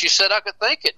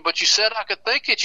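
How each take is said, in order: First: The arrested man keeps protesting up high; protesting yell. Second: Higher pitched mock protest, THINK stressed; retold yell of a man being arrested, higher. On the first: Retold or imitated. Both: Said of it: "Tudor Bill was yelling".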